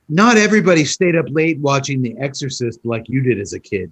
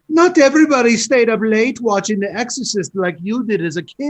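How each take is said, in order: First: It is said in the speaker's ordinary accent. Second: It is said in a put-on accent. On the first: The speaker calls it wrong. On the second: The speaker calls it right.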